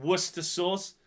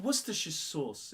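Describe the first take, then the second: First: Worcester as just "wuss-ter", no "shire"; Worcester sauce as "WUSS-ter sauce"; wrong short name. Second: Worcestershire as "wuss-ter-shuh"; Worcestershire sauce as "WUSS-ter-shuh sauce"; correct full name. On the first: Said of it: "you don't call it Worcester sauce". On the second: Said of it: "it's called Worcestershire sauce". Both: Shown as a demonstration.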